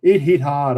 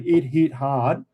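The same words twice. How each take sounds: First: Said in the usual way. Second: "It hit hard" said slowly, each word weighted; slow deliberate "It hit hard"; slow emphatic repeat. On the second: Shown as a demonstration. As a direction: drag out "It hit hard" to drive it home.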